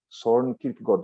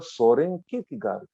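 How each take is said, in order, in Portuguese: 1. O nome é falado com pronúncia dinamarquesa. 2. O nome é falado com pronúncia do português brasileiro. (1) "em dinamarquês, a pronúncia é" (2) "aqui no Brasil a gente fala"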